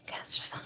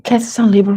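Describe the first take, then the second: First: Barely audible unvoiced whisper; faint whisper. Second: Said in the usual way. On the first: Real, not acted. Rechecking her own sign placements, a faint whisper. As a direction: breathe the words almost silently.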